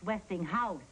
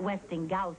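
First: The middle is said with an audible H sound. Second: The middle is said with a hard G, no H. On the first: The speaker calls it right. "It's Westinghouse" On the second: The speaker calls it wrong. "It's not Westinghouse"

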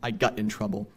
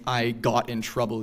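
First: The vowel is a centered, older New England sound. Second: The vowel is the general, widespread pronunciation. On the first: "you might hear" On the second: "or instead of saying"

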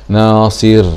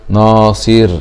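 No difference in how they are said.

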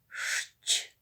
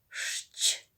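No difference in how they are said.

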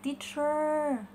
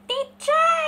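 First: It is said in a rounder, heavier voice. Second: It is said in a light, childlike voice.

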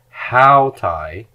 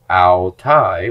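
First: The stress is on the first syllable. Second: The stress is on the second syllable. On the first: It means these feminine things. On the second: It means they, referring to females.

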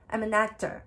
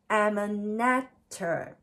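First: The phrase is spoken at a natural, quick pace. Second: The phrase is spoken slowly and drawn out. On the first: "本来のスピードで" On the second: "れいてんなな倍とかれいてんはち倍で練習します"

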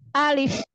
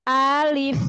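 First: The word is said short and directly. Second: The word is drawn out with a swinging tune. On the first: The speaker calls it right. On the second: The speaker calls it wrong. "Jangan alif, jangan diayun"

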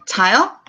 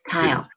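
First: The voice rises at the end. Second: The voice falls or stays level at the end. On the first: It asks whether someone is sleeping. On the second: It states that someone is sleeping.

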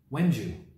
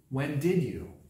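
First: When and did blend into one syllable. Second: Every word is said fully and separately.

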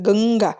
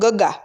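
First: The first syllable has a nasal sound. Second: The first syllable has no nasal sound. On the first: "આ dot છે એટલે ગંગા" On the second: "જે એ ના આપણે મૂકીએ તો ગગા"

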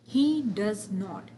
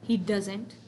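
First: Does and not are fully sounded and stressed. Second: It is a weak, unstressed contracted form.

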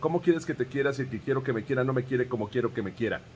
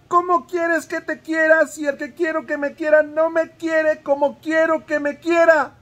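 First: It is said fast. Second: It is said more slowly.

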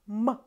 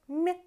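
First: The m sound is hard, not palatalized. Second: The m sound is soft, palatalized. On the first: "hard sound" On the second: "soft sound"

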